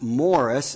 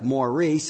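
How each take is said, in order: First: It is said like the name Morris. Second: It is said like the name Maurice. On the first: "baby Theodore's middle name is pronounced Morris" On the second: "It looks like Maurice"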